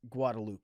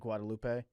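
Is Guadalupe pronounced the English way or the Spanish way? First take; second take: English; Spanish. First: The name is said with an anglicized pronunciation. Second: The name is said with a Spanish pronunciation. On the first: This is how locals in the city say it. "we're gonna call it like Guadalupe Street" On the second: This is how the name is properly pronounced. "instead of Guadalupe"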